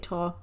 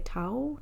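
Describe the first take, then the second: First: The word ends in an 'ah' sound. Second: The word ends in an 'ow' sound. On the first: This is the speaker's own way of saying it. "I say Ta" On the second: This is how other people say it. "I think they say Tao"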